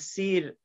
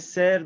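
First: It has the Iranian Persian vowel, like 'seer'. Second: It has the Tajik vowel, like 'sayr'. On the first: "ما میگیم سیر" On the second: "ایشون میگه سر"

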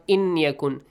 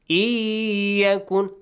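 First: The n sound is pronounced separately before y. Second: The n merges into a long nasal y sound. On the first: The speaker calls it wrong. "Not inyakun" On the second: The speaker calls it right. "Merge the noon sound to the ya, extension of two beats, and nasal sound"

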